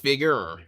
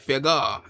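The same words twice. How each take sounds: First: The word ends in an r-colored er sound. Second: The word ends in an open uh sound. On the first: It is said without the southern accent. "instead of figure" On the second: It is said with a southern accent. "he said figure"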